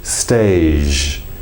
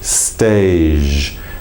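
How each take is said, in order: First: The word ends in a soft zh sound. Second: The word ends in a soft zh sound.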